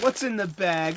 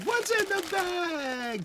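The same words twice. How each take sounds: First: Said in the usual way. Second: Much higher, slow, drawn-out "What's in the bag?"; sing-song game show call. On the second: Acted. Host teasing viewers before opening the bag, high sing-song.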